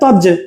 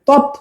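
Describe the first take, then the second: First: The word ends with a j sound. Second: The word ends with a t sound. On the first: "তৎটা হয়ে গেছে তজ" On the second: "তৎটা হয়ে গেছে তজ"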